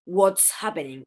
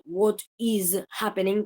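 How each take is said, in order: First: "what's happening" with WHAT'S as one syllable ending in voiceless ts; contracted form. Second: WHAT IS as two separate words, slow, with a voiced z in "is"; full uncontracted form. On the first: Teacher showing students the contraction, "what's" with a voiceless s. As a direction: run "what is" together into "what's", hissed s. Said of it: "cuando yo hago la contracción". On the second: Teacher showing students the form before contraction, "what is happening" said slowly in full. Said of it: "yo paso de decir". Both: Shown as a demonstration.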